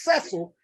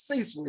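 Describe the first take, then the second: First: Cecil said SESS-ul, with a short e; mistaken name. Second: Cecil said SEE-sul, with a long ee; correct name. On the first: Showing the lady her error, Cecil pronounced SESS-ul. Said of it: "if it got the accent mark above it". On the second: Correcting the lady, Cecil pronounced SEE-sul. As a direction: give Cecil a long ee and an S sound. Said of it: "my name is Cecil". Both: Shown as a demonstration.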